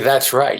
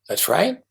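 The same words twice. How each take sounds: First: The voice falls at the end. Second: The voice rises at the end.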